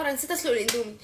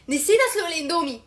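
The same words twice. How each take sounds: First: Said in the usual way. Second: Raised voice, hammed-up dismay; exasperated dismay. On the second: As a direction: repeat the mistake in louder mock horror. Repeats mistake in dismay. (بصوت أعلى وحسرة تمثيلية)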